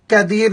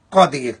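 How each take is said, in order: First: قدیر with a thin k, like kedeer; thin kaf in قدیر, the common mistake; wrong pronunciation. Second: قدیر with a heavy, full-mouth qaf; correct pronunciation. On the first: Teacher demonstrating the students' mistake, thin k in قدیر. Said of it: "اکثر لوگ اس کو قدیر پڑھتے ہیں". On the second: Teacher showing the correct heavy qaf in قدیر. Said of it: "قاف کو موٹا پڑھیں گے". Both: Shown as a demonstration.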